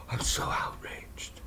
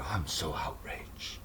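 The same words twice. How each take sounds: First: Slow whispered mock outrage; mock outraged liberal. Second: Slow mocking whisper of outrage; mock outraged liberal. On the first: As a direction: breathe it out like a pearl-clutching liberal. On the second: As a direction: whisper it like a fake-offended liberal. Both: Mocking liberals to his audience in a slow whisper. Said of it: "sick caricature of these pussy liberals".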